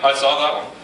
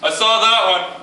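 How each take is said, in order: First: It is said at the quietest volume. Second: It is said louder than before.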